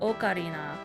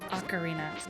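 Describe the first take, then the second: First: The word begins with a clear 'oh' sound. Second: The word does not begin with 'oh'. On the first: This is how the Japanese title says it. "with an O sound" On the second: This is how it was personally read. "I always read it as"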